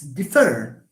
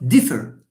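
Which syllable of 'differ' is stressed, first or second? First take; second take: second; first. First: The stress is on the second syllable. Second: The stress is on the first syllable. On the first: The speaker calls it right. "it's differ" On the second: The speaker calls it wrong. "It's not differ"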